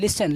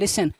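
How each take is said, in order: The two takes are said the same way.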